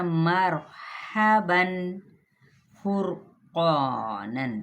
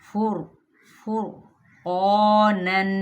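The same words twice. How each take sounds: First: फुरकानन slow with too much trill on र; overrolled ra. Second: फुरकानन slow, one light tap on र; moderate ra. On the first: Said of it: "ये ज़्यादा हो गई". (फुरकानन में रॉ ज़्यादा रोल करना) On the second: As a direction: tap the र in फुरकानन just once. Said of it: "मुनासिब कैसे रखनी है". (फुरकानन में मुनासिब तकरार) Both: Shown as a demonstration.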